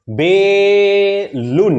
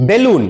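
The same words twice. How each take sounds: First: বেলুন stretched very slowly, syllable by syllable; বেলুন with a long, level, held first syllable; sounded out. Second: Said in the usual way. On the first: Shown as a demonstration. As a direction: draw out the first syllable of বেলুন, then land the second. Sounds out word for Bangla spelling.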